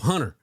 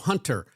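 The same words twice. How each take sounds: First: The T sound in the middle is dropped. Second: The T sound in the middle is pronounced. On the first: "me and your mom don't put a T in it" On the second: "other families... where they go"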